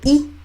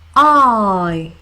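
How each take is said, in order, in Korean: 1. 짧고 끊기는 모음 소리예요, 'ih'처럼. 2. 길게 미끄러지는 모음 소리예요, 'eye'처럼. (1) "단모음일 때" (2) "장모음일 때는요, 길게"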